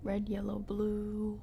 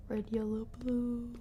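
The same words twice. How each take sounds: The two takes are said the same way.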